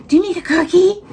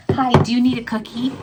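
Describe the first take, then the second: First: Talking to a dog. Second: Higher pet voice asking; talking to a dog. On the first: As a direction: coo the question way up high. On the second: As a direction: sweetly ask the dog. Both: Real, not acted. Offering dog a cookie.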